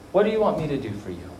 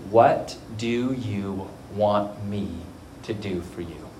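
First: Said in the usual way. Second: Low, slow and measured; slow, solemn question. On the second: Retold or imitated. Jesus asking the blind man what he wants, slow and solemn. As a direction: ask it deliberately, sinking softer at the end.

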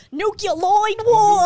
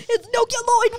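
First: Put-on Nucleoid war! shouted high and slow in a thick accent; heavy-accented movie villain yelling Nucleoid war!. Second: Put-on It's nucleoid war! yelled high and loud, heavy accent; imitating the Grease 2 character's accent; heavy movie accent. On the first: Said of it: "'cause he says it so". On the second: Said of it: "That's how he says it".

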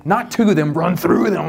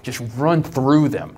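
First: Shouted coach order, THROUGH hit hard. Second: Said in the usual way. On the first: Retold or imitated. Dad coaching at football practice, shouting "run through them".

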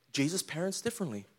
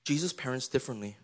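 First: Jesus parents differently with the weight on differently; differently carries the stress, falling at the end. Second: Jesus said low and weighty, the rest quieter; Jesus carries the stress, lower and softer. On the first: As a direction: land hard on differently. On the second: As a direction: lean on the name Jesus. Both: Shown as a demonstration.

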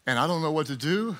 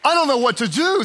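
First: Softer, hushed admission to God; quiet prayer. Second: Mock panicked. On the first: Acted. Pastor voicing a calm believer praying, softly. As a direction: say it softly, surrendering. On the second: Pastor acting out an anxious believer, mock panic. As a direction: fret it out like you're overwhelmed.

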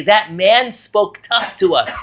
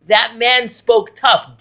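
First: Said in the usual way. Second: That man spoke tough, with each word slow and weighted; slow emphatic. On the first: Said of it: "when the brothers go back to Yaakov and they say". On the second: Shown as a demonstration. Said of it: "Diber Kashot".

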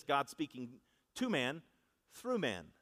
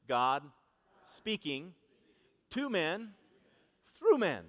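First: Said in the usual way. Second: God, speaking, to man, through man, each word set apart with pauses; call-and-response phrasing. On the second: Shown as a demonstration. Preacher leading the congregation in a spaced-out chant, building up. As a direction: lead the church word by word, rising to a loud through man. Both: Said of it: "Say that with me".

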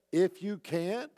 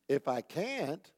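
First: If you can't, slow with IF pressed; pointed stress. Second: Said in the usual way. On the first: Shown as a demonstration. Jesus making a point to the father, slow pointed stress. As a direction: lean on "If" slowly, making a point. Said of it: "No, he said". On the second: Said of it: "you generally would say".

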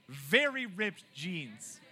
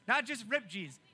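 First: "very" stretched out slowly and pressed hard; stress on very. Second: "Not" hit hard, "just ripped jeans" quicker; stress on not. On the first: Pastor to youth, correcting to "very" with weight. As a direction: draw out "very" so it contrasts with "just". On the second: Pastor to youth, setting up the contrast with "Not". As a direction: punch "Not" to set up the contrast. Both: Shown as a demonstration.

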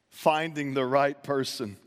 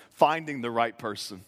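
First: "Finding the right person" said slowly with weight on "right"; slow emphasis. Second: Said in the usual way. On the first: Shown as a demonstration. Preacher repeating point two for note-takers, slow and emphatic. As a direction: lean on "right" and take it slow. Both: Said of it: "write this down".

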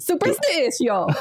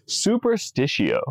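First: Put-on slow, laughing Italian accent on Superstitio. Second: Superstitio slow and drawn out, Latin vowels; Latin pronunciation. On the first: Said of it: "I wanna say it in an Italian accent". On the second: Shown as a demonstration. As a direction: say Superstitio slowly, soo-per-stee-tsee-o.

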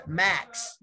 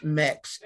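First: "Max" said with a flat open a, as in cat; the mistaken "Max" with a short a; wrong vowel Max. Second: "Mex" said slowly with a short e, as in bed; correct name Mex. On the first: Retold or imitated. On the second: Shown as a demonstration. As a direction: stress the e in "Mex" clearly. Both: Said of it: "It's pronounced Mex".

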